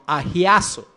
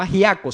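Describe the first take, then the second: First: The word is said with a Z sound. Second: The word is said without a Z sound. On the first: The speaker calls it right. "sino agiazo, con H y con Z" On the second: The speaker calls it wrong. "no agiaco"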